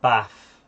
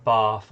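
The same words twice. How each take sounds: First: Bath with a short flat northern a. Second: Bath with a long southern ah. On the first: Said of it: "I'll say". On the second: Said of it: "instead of". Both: Shown as a demonstration.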